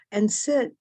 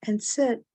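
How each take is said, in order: Both takes have the same delivery.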